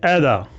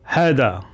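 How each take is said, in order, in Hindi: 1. इसमें 'ai' स्वर है और h नहीं है। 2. इसमें h है और 'ai' स्वर है। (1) "कुछ बोलते हैं ऐदा" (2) "जो सऊदी के बोलते हैं हैदा"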